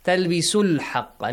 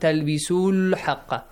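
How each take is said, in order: First: The vowel before haqqa is short, one count. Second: The vowel before haqqa is long, two counts. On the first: The speaker calls it right. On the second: The speaker calls it wrong. "Do not make it two counts"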